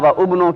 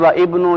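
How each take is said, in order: First: A separate 'u' vowel begins the second word. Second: A separate 'i' vowel begins the second word. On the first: "की बजाय" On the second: "की बजाय"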